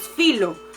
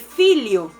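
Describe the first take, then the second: First: The middle consonant is a plain l sound. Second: The middle consonant is an l-y glide sound. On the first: The speaker calls it wrong. "lo leeríamos filo" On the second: The speaker calls it right. "se pronuncia realmente filio"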